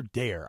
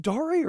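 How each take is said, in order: First: "Dare" rhyming with "air", single syllable; current pronunciation. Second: "Dare" as DAR-ay, with an added final vowel; older pronunciation. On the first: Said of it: "now everybody's saying Dare". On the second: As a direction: say "Dare" with two syllables, DAR-ay. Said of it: "I remember people saying Dare at first". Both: Shown as a demonstration.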